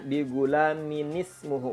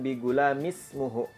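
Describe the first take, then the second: First: An extra 'n' sound links the two words. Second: No 'n' sound links the two words. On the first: The speaker calls it right. "Bacanya bigulaminismuhu" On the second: The speaker calls it wrong. "bukan bigulamismuhu. Itu keliru"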